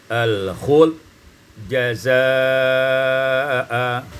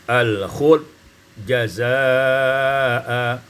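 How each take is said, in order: No difference in how they are said.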